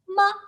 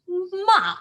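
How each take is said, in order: First: The syllable is short, light and unstressed. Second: The pitch falls sharply downward. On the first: It marks a question. "the light tone when you que- like question mark" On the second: It means scold. "a down tone"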